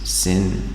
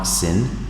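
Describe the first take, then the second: First: The vowel is long, like in 'line'. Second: The vowel is short, like in 'tin'. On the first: The speaker calls it right. "It's called sine and cosine" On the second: The speaker calls it wrong. "not sin"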